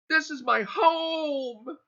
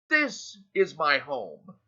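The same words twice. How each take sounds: First: The stress is on the word home. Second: The stress is on the word this.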